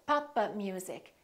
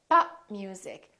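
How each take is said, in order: First: The P is released with an extra vowel. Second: The P is held without release. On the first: The speaker calls it wrong. "like we're adding an extra syllable" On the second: The speaker calls it right. "make sure that you hold the stop"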